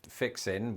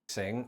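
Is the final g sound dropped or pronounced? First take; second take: dropped; pronounced. First: The word ends in -in without the g. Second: The word ends with a full -ing sound. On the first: Getting ready to do something. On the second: Repairing something.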